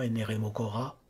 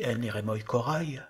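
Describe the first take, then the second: First: Both words end on plain vowels, no glide. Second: Both words end with a light i-glide. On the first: "ou bien les ignorer dans la prononciation" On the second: "On peut prononcer légèrement ces iota souscrits"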